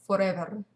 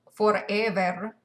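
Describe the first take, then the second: First: Said in the usual way. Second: "Forever" slow in Spanglitalian English, last syllable drawn out; drawn-out, louder "Forever", imitating a Spanglitalian accent. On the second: Shown as a demonstration. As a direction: stretch "Forever" with a Spanish-Italian accent. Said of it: "where he was like".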